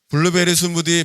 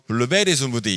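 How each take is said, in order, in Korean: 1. 표준 억양입니다. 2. 경상도 억양입니다. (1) "평범하게" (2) "이렇게 발음한다는 것이죠"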